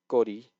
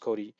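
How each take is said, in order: First: The first consonant is tense. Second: The first consonant is plain, not tense. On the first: The speaker calls it right. "needs to be a tense consonant" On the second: The speaker calls it wrong. "not just Kori"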